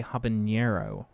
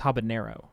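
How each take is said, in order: First: "habanero" with an added Spanish ny, habanyero; extra-Spanish ny sound in "habanero"; hyperforeign habanero. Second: Said in the usual way. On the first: Shown as a demonstration. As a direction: say "habanero" as ha-ba-NYAIR-o. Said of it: "Americans will often say". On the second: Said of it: "that's not, it's habanero".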